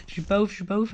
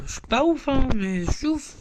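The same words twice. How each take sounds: First: Said in the usual way. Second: Higher, teasing fake boast; mock bragging. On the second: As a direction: pretend to show off about your account, jokingly. (fanfaronnade pour rire, voix plus aiguë et taquine) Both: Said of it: "Non, je rigole".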